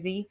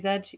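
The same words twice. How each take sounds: First: It is said in an American accent. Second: It is said in the speaker's own accent.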